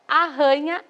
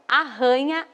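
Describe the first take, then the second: No difference in how they are said.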